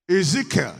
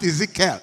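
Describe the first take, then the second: First: Ezekiel stressed on "ZEE", light falling ending; corrected pronunciation. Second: Ezekiel ending in a full, stressed "KELL"; mispronounced Ezekiel. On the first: Preacher confirms the accepted way, Ezekiel stressed on "ZEE". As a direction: say Ezekiel with a strong "ZEE", easing off after. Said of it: "Yeah, that's it". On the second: Preacher shows the congregation the rejected way, Ezekiel ending in "kell". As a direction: lean on the last syllable of Ezekiel, "kell". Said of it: "It's not Ezekiel". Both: Shown as a demonstration.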